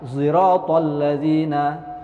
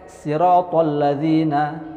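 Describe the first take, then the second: First: The word begins with an s-z blended sound. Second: The word begins with a plain s sound. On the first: This is another reciter's reading. "kalau kholaf ismam ziratal ladzina" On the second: This is one reciter's reading. "kumbul pakai siratal ladzina"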